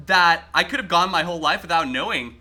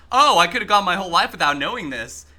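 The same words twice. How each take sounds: First: Honest appreciation of a weird fact; mean it, glad to have learned it; sincere, in a good way. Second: Smartass put-down of a useless fact; mock it, dripping with sarcasm; sarcastic. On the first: Streamer tells chat he means the fact sincerely, genuinely pleased. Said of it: "in a good way". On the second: Streamer demos his smartass version for chat, sarcastic. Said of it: "a sarcastic". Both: Shown as a demonstration.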